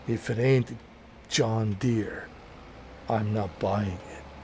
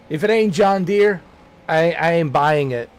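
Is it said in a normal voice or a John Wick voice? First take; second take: John Wick voice; normal voice. First: It is said in a John Wick voice. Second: It is said in his normal voice.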